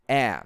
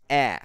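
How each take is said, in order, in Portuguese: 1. O som do T final é omitido. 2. O som do T final é omitido.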